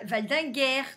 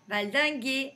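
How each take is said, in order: First: The ending sounds like 'air' with an r. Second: The ending sounds like 'ay' with no r. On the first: The speaker calls it wrong. "On dit pas valdinguer" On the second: The speaker calls it right. "Non, c'est traverser, valdinguer"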